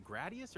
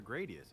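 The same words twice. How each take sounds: First: Gradius with a short "a", as in "grad"; GRAD-ee-us, flat-a vowel in Gradius; short-a pronunciation. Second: Gradius with a long "a", as in "grade"; GRAY-dee-us, long vowel in Gradius; long-a pronunciation. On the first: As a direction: say the first syllable of Gradius like "grad". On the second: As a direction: say the first syllable of Gradius like "grade". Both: Shown as a demonstration. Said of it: "is it Gradius or Gradius".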